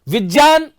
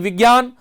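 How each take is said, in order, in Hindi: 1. बीच का संयुक्ताक्षर j ध्वनि से शुरू होता है। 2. बीच का संयुक्ताक्षर g ध्वनि से शुरू होता है। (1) "क्योंकि ज और य से मिलकर बना है, इसलिए इसका सही सही उच्चारण जो है वो ज होना चाहिए" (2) "ना कि"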